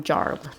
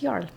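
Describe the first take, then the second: First: The name is said with an English pronunciation. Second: The name is said with a Swedish pronunciation. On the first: "the English way of saying that" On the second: "Swedish pronunciation is Jarl"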